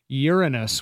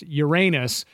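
First: The stress is on the first syllable. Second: The stress is on the second syllable. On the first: "with stress on the first syllable" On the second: "with stress on the second syllable"

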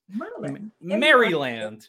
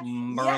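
First: The name is said with all three syllables. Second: The name is clipped to two quick syllables.

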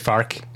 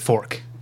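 First: It is said in a St. Louis accent. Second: It is said in a general American accent. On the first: "That's a very St. Louis thing" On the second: "earlier I said fork"

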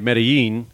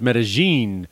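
First: The double L does not sound like a J. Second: The double L sounds close to a J. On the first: This is how outsiders say it. The speaker calls it wrong. "now you said it the American way" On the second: This is how residents say it. The speaker calls it right. "I found out it's Medellin"

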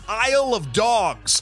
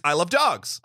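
First: The phrase is said at a normal, careful pace. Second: The phrase is said quickly, running words together.

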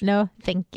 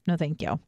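First: It is said in a sassy, bitchy tone. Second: It is said in a plain, ordinary tone.

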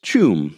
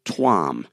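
First: The name starts with a 'ch' sound. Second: The name starts with a 't' sound. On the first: "the article says it's pronounced Chum, C-H-E-W-M" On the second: "I pronounced it Tuam, T-U-A-M"

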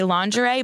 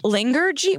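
First: The word ends with a zhuh-ree sound. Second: The word ends with a jee sound. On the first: The speaker calls it right. "meant to say lingerie" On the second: The speaker calls it wrong. "but she says, ... Lingergy"

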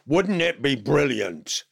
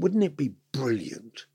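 First: The phrase is said at a louder volume. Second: The phrase is said at a quieter volume.

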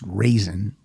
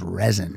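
First: The first vowel sounds like 'ray'. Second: The first vowel sounds like 'reh'. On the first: The speaker calls it right. "his name is pronounced Raisin" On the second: The speaker calls it wrong. "which I would pronounce as resin"

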